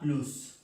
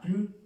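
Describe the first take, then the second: First: The final S sound is pronounced. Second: The final S sound is silent. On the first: "A plus se pronuncia la S" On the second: "esta S no se pronuncia"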